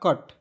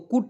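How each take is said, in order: First: The vowel sounds like 'uh' as in but. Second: The vowel sounds like 'oo' as in put. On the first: The speaker calls it right. "इससे पढ़ा जाएगा कट" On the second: The speaker calls it wrong. "कुट नहीं पढ़ेंगे दोस्तों"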